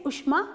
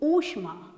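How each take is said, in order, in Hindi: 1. पहला स्वर छोटा उ है। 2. पहला स्वर बड़ा ऊ है।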